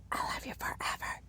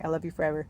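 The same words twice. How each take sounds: First: Soft whispered bedtime words; hushed, voiceless whisper; tender whisper. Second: Said in the usual way. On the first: Retold or imitated. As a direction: whisper it into a child's ear. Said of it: "I would whisper in her ear". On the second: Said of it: "it started with me whispering".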